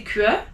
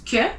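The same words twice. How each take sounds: First: Que with a w sound, kweh; wrong que. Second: Que said as plain keu, no w; right que. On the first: Teacher showing the wrong que. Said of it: "you don't say que". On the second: Teacher giving the right que. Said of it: "it's que". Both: Shown as a demonstration.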